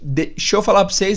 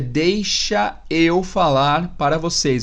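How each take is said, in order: First: The words are contracted, with sounds dropped. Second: Every word is pronounced fully and separately.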